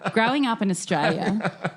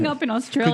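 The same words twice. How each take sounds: First: It is said in a broad Australian accent. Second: It is said in the speaker's ordinary accent.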